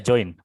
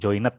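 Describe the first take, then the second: First: The -ed ending adds no extra syllable. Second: The -ed ending is said as an extra syllable. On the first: The speaker calls it right. "Iya join" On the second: The speaker calls it wrong. "bukan joined ya"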